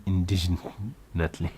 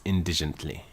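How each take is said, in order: First: "indignantly" said slowly, in-DIG-nant-ly; carefully fix "indignantly"; corrected word. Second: "indigently" said as in-DIJ-ent-ly; mispronounced. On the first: Reader correcting herself, slow careful "indignantly". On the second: Reader stumbling over the word, saying "indigently". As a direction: slip into "indigently". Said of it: "Indigent-, indig-, indignantly". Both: Shown as a demonstration.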